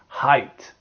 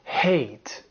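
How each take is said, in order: First: The vowel sounds like 'eye' in 'high'. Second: The vowel sounds like 'ay' in 'day'. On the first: The speaker calls it right. "It's height" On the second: The speaker calls it wrong. "Don't say hate"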